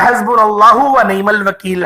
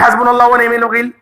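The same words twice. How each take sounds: First: The phrase is said slowly and carefully. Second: The phrase is said quickly and hurriedly. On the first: Each word is pronounced properly. The speaker calls it right. "इसी तरीके से पढ़िएगा" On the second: The sounds of the letters get spoiled. The speaker calls it wrong. "ऐसे नहीं कि ... तेज तेज पढ़े"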